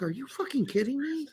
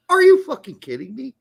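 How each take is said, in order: First: High, soft incredulous aside; hushed disbelief. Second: High, loud disbelief; loud incredulous outrage. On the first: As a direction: retell your shock high and under your breath. Retells own disbelieving reaction. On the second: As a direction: retell your shock at full volume. Repeats own outraged reaction, escalating. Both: Retold or imitated.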